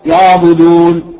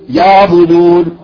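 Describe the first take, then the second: The two takes are said the same way.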